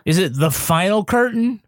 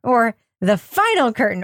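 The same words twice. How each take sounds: First: "Curtain" pushed out as the key word; questioning stress on "Curtain". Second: "Final" hit hard, "Curtain" falls away; correcting stress on "Final". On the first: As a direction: lean hard on "Curtain" in The Final Curtain. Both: Shown as a demonstration. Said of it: "the emphasis on the syllable thing".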